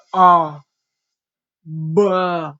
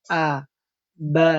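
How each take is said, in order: First: A and ba said heavy and thick, loud; wrong thick reading. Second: A and ba said thin with lips open; correct thin reading. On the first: Teacher shows students the wrong thick a and ba. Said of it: "Nah, itu keliru. Salah". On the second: Teacher gives students the correct thin a and ba. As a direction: give the light, open a and ba. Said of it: "Yang benar". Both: Shown as a demonstration.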